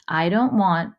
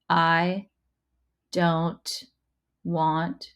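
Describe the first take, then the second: First: The words are joined smoothly in one phrase. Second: Each word is read separately with breaks. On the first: The speaker calls it right. "scoop those words together" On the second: The speaker calls it wrong. "instead of reading it like this"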